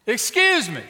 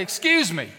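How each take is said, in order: First: High, loud, emphatic interruption; insistent call. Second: Raised, louder call for attention; firm interjection. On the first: Preacher repeats himself to ignoring mother, insistent and loud. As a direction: call out hard to be noticed. Repeats it to get her attention. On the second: Preacher interrupts a mean mama, firm. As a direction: break in firmly on a stranger. Confronting the mother, first attempt. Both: Acted.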